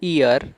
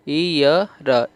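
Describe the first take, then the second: First: Said in the usual way. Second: Slow teaching drill on ईयर; ईयर drawn out for the class; ईयर said very slowly. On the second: Shown as a demonstration. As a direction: stretch out ईयर syllable by syllable. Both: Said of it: "इसे आप ईयर पढ़ रहे हो".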